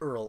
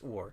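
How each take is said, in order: First: The word sounds like 'earl'. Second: The word sounds like 'ore'. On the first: The speaker calls it wrong. "I just pronounced it Earl. Oops" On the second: The speaker calls it right. "It is pronounced ore"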